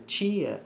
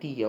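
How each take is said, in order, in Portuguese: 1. Começa com som de ch. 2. Começa com um t simples. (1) "o Tchê" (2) "O T"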